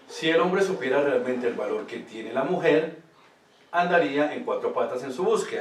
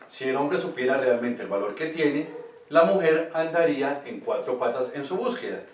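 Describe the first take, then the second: First: The pause comes after the word "mujer". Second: The pause comes after the word "tiene".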